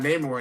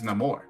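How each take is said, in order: First: The name is pronounced the English way. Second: The name is pronounced the Spanish way. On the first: This is the old way of saying the name. The speaker calls it wrong. "He's not Namor anymore" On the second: This is the new way of saying the name. The speaker calls it right. "because it's a Spanish pronunciation now because he's Mexican"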